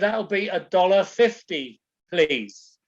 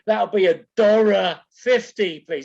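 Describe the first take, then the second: First: The R in 'dollar' is dropped. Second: The R in 'dollar' is strongly pronounced. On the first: The listener did not understand it. The speaker calls it wrong. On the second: The listener understood it. The speaker calls it right.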